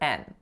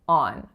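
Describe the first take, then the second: First: The syllable has an 'e' vowel, like 'en'. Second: The syllable has an open 'o' vowel, like 'on'. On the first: The speaker calls it wrong. "I usually hear N" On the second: The speaker calls it right. "So the first syllable is on"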